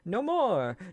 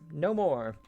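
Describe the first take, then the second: First: It is said as an imitation of Luz. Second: It is said in the speaker's plain reading voice.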